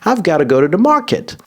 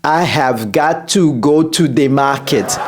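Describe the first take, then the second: First: The words are contracted to 'I've'. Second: The words 'I have' are said in full. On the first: The speaker calls it right. "L'Américain a dit" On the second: The speaker calls it wrong. "ne dites pas"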